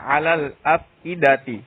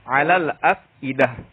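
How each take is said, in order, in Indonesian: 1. Kata terakhir berakhir dengan bunyi ti. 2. Kata terakhir berakhir dengan bunyi h.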